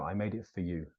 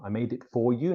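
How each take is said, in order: First: "for" reduced to "fuh"; correct, lighter, softer "for" with a schwa; natural unstressed "for", said "fuh"; weak "for". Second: "for" said in full like "four"; over-careful, unreduced "for". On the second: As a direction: give "for" its full vowel before "you". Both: Shown as a demonstration.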